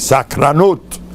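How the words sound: It has Modern Israeli vowels and ends in -ut. The speaker calls it wrong. "He didn't speak normal Hebrew"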